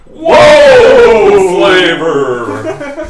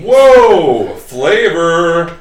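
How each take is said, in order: First: It is said in a cowboy voice. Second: It is read out in a normal voice.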